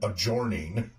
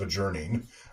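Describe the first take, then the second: First: The stressed vowel rhymes with 'forming', an 'or' sound. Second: The stressed vowel has the usual 'er' sound. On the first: The speaker calls it wrong. "you have to mispronounce it intentionally to keep the alliteration and rhyming going" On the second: The speaker calls it right. "instead of"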